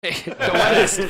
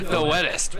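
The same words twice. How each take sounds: First: Laughing through the words; giggling joke about the rain. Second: Said in the usual way. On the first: Real, not acted. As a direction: chuckle it out. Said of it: "really big for hurricane season".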